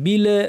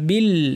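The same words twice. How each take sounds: First: The final l is released with an echoing bounce. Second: The final l ends cleanly without any bounce. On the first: The speaker calls it wrong. "লাম যেন কলকল না হয় বিল বলবেন না" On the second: The speaker calls it right. "বলবেন বিল"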